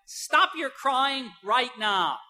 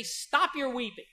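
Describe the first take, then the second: First: Slow, firm scolding stop; stern command. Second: Gentle command. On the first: Parent scolding a whining child, slow stern command. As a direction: tell the child off, each word spaced out. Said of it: "to say to a whining child". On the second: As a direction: ease the grieving mother to stop crying. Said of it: "to go to a grieving, grieving mother and say". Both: Pretend.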